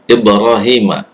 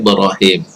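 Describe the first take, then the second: First: The name ends with a final vowel sound. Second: The name ends on a bare consonant sound.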